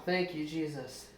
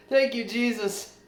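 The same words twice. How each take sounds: First: Quiet thanks. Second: Joyful thanks. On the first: Quiet thanks after the excitement. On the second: Grateful shout after relief. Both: Real, not acted.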